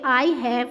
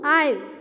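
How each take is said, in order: First: The two words are said separately in full. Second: The two words merge into one short syllable. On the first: The speaker calls it wrong. "आई हैव नहीं" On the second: The speaker calls it right. "आईव बोलेंगे"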